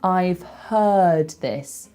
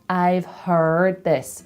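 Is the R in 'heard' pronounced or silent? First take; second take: silent; pronounced. First: The R in 'heard' is silent. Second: The R in 'heard' is clearly pronounced. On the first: "whereas I would say" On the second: "He says, ... they're hearing the R"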